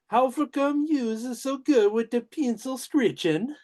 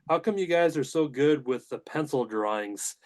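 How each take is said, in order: First: It is said in a put-on character voice. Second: It is said in his normal voice.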